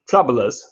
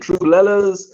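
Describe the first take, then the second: First: The name is said as one word, troublers. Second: The name is said as two words, true lellas. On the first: The speaker calls it right. "like the troublers" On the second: The speaker calls it wrong. "I've been saying their name wrong"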